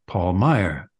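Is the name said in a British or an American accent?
American. The name is said in an American accent. This is the usual American way to say his name. "with the American"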